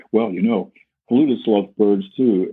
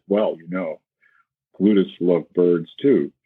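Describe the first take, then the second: First: Light, floating reply. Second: Said in the usual way. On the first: Retold or imitated. Flutist to the bird puppet, lightly lifted and airy. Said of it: "talking to this puppet". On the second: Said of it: "And Ron Paul says".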